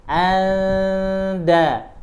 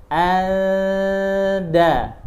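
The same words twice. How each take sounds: The two takes are said the same way.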